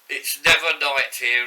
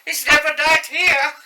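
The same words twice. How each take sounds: First: It is said in a normal voice. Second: It is said in a shrill, childlike voice.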